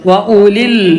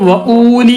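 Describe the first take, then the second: First: The vowel after wa is short. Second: The vowel after wa is long. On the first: The speaker calls it right. "വാവില്ലാത്തതുപോലെ വായിക്കാം" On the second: The speaker calls it wrong. "വഊലി എന്ന് വായിക്കരുത്"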